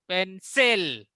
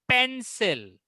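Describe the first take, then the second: First: The stress is on the second syllable. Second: The stress is on the first syllable. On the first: The speaker calls it wrong. "ऐसा नहीं कि pencil" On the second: The speaker calls it right. "पेन का pronunciation थोड़ा जोर से होगा और सिल का थोड़ा आस्ते होगा"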